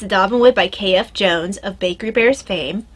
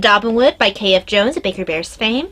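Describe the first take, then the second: First: It is spoken slowly. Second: It is spoken quickly. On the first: The speaker calls it right. "that's more understandable" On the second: The speaker calls it wrong. "I realize I speak very quickly"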